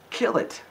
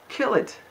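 First: Breathy urgent whisper, pitched up; intense whisper. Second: Shrill high cry with a laugh, much louder; high laughing shout. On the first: Urging to kill obvious sin. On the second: Repeats command, laughing. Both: Real, not acted.

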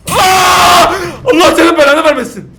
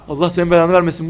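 First: High, loud cursing yell; terrified shout. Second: Said in the usual way. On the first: Real, not acted. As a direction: scream the curse in fright. Jump scare.

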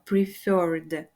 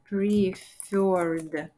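First: Said in the usual way. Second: "preferred" stretched syllable by syllable; slow dictation. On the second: Shown as a demonstration. Teacher writing out the word for learners, slow dictation. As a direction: draw out each sound of "preferred".

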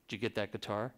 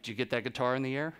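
First: Low, soft murmur, imitating [name]; [name]'s voice. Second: Imitating [name]. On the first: Backstage, [name] asking the photographer about the guitar, in a low, soft murmur. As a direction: drop low and quiet like [name]. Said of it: "that's how [name] talks". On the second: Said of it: "He's like".

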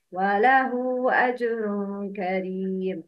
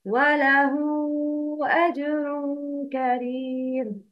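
First: وله with the ha clipped short, no madd; wrong tajweed reading. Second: وله with the ha lengthened for two counts; correct tajweed reading. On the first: Teacher showing the mistake, وله said with no madd. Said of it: "but the wrong is". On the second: Teacher reading وله with a long madd on the ha. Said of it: "repeat after me the correct pronunciation". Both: Shown as a demonstration.

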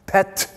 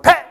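First: Pet stretched to one and a half syllables; drawn-out pet. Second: Pet clipped short and punched louder; sharp pet. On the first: Teacher showing the wrong way to say pet, slightly drawn. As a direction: let pet linger a little too long. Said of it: "one and a half syllables". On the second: Teacher giving the right sharp Tibetan pet, loud and short. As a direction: snap pet out in one short burst. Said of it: "more like". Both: Shown as a demonstration.

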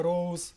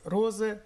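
First: Роуз said the English way, as rose; English pronunciation. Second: Розе read letter by letter, as written; spelled-out reading. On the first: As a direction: give роуз its real English sound. (роуз з англійською вимовою) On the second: (розе вимовлено так, як пишеться) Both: Shown as a demonstration. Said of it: "читається роуз".

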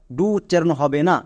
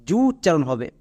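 First: ডু with a hard D sound; ডু said as "doo"; wrong sound demo. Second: জু opening with j, in place of d; correct sound demo. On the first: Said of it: "D U এর জন্য ডু উচ্চারণ করে". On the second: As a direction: model জু as "joo", starting on a J. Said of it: "D এর জন্য বর্গীয় জ হয়". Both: Shown as a demonstration.

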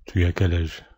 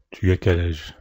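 Both takes have the same delivery.

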